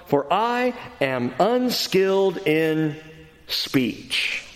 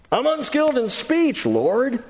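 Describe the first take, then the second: First: Said in the usual way. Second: High, pleading excuse; whiny Moses. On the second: Acted. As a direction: plead it up high like a reluctant prophet. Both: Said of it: "note what Moses says".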